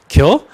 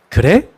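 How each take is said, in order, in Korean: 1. 충청도 사투리 형태로 하는 말이에요. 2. 표준어 형태로 하는 말이에요. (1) "이랬어요, 제가" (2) "근데 지금 제가 무슨 일 있으면 그래? 라고 합니다"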